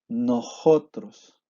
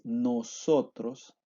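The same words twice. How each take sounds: First: The middle s sounds like a breathy h. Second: The middle s is a clear hissing s. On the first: This is how the east of the country says it. "la pronunciamos como si fuera una J" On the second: This is the usual pronunciation elsewhere. "en vez de"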